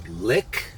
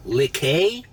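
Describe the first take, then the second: First: LICK said as one short syllable, like the English word; one-syllable reading. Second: LIQUET said lee-KAY, ending in an AY sound, rising; two-syllable reading. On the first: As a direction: say Lick as a single syllable, questioning. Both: Shown as a demonstration. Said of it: "How would you pronounce L I Q U E".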